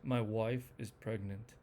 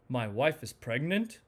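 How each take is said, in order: First: It sounds uninterested, with pitch going down at the end. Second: It sounds excited, with pitch going up then down. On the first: The news is nothing special. "disinterest... You can see that the pitch goes down" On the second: The news is happy and exciting. "enthusiasm... it goes up and down"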